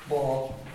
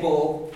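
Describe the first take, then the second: First: The vowel is an open O sound. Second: The vowel is a closed O sound. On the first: The speaker calls it right. "We have an open O here" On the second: The speaker calls it wrong. "we don't say Bo"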